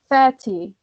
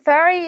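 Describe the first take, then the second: First: It is said with a British accent. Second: It is said with an American accent. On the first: "if you go to British pronunciation, you can say" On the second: "is American, American pronunciation"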